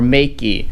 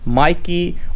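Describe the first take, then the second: First: The first syllable sounds like 'may'. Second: The first syllable sounds like 'my'. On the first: "I've heard it pronounced Makey" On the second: "I'm pronouncing it as Mikey is because I have a friend by the name of Mai"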